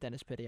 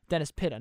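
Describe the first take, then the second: First: The surname ends with an 'ee' vowel. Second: The surname ends with an 'ah' vowel. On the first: The speaker calls it wrong. "I thought I had Dennis Pitty. I don't" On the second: The speaker calls it right. "Dennis Pitta, not"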